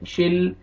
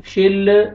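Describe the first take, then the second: First: "शिल" ending on a still, unreleased l; still laam. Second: "शिल" with a released, bouncing l; bouncing laam. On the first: Teacher correcting, "शिल" with unshaken l. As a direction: close "शिल" on the l without bounce. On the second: Teacher showing the mistake, "शिल" with shaken l. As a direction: add a little vowel after the l in "शिल". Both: Shown as a demonstration. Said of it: "लाम को हिलाना नहीं है".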